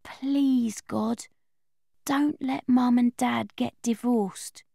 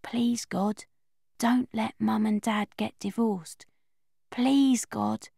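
First: Soft, slow, hushed plea; a soft, slow bedtime prayer; quiet prayer. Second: Hushed whisper under the duvet; slow whispered bedtime plea; whispered prayer. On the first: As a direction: murmur it like a prayer to yourself. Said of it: "This is what I pray". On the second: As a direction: whisper it so nobody hears. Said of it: "going to sleep without saying my prayer". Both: Acted.

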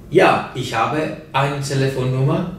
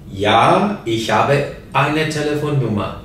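Both takes have the same delivery.

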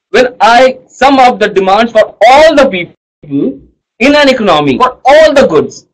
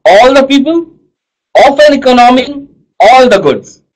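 First: Said in the usual way. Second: "All", "economy" and "goods" each hit firmly, a little higher; teacher stressing "All" and "goods" so the class remembers; stressed key words. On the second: Shown as a demonstration. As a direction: lean on "All the people" and "all the goods" like a teacher drilling it. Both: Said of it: "what are the words that I'm stressing on".

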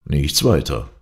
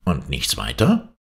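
First: WEITER falling, a settled reply; answering statement. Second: WEITER lifted in a rising question; questioning exclamation. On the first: Shandon answers the doctor about the letter, falling statement. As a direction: close it off with „weiter“ dropping at the end. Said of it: "erwiderte Shandon". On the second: Doctor asks Shandon about the letter, exclaimed rising question. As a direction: ask it with „weiter“ climbing at the end. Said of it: "rief der Doktor". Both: A narrator's reading.

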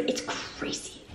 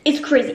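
First: Slow, stunned whisper. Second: Said in the usual way. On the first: Real, not acted. Telling viewers about losing the apartment, slow whisper. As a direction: breathe it out slowly in disbelief. Repeats in disbelief.

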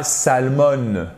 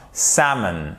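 First: "salmon" as sal-MONN with audible L; wrongly sounded L. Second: "salmon" as SAM-un, stressed first; silent L. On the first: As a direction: pronounce the L in "salmon", dragging the ending. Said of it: "Et pas salmon". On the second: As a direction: leave the L out of "salmon". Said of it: "Vous n'entendez pas le L". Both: Shown as a demonstration.

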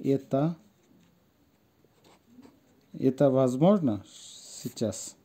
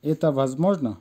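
First: Halting word-by-word model, long pauses; pronunciation demo. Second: Said in the usual way. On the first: Shown as a demonstration. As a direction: say it slowly in pieces for learners. (থেমে থেমে উচ্চারণ দেখানো) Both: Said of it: "আসেন উচ্চারণটা দেখি".

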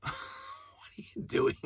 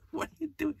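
First: Whispered, laughing "What are you doing?"; laughing disbelief. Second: Much higher, soft "What are you doing?"; squeaky incredulous repeat. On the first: Fan mocking the movie, laughing in disbelief. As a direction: laugh it out in incredulity. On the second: Fan mocking the movie, a squeaky repeat. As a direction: squeak it out in mock despair. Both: Real, not acted.

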